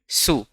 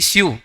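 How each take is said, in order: First: It has no y sound before the vowel. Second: It has a y sound before the vowel. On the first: The speaker calls it right. "इसका उच्चारण है सू" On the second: The speaker calls it wrong. "स्यू नहीं"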